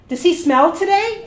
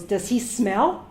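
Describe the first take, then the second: First: Imitating a loud, high, tactless question; loud repeated question. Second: Said in the usual way. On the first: Doctor asks again beside patient, loud and tactless. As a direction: repeat it louder for all to hear.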